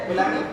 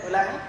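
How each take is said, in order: No difference in how they are said.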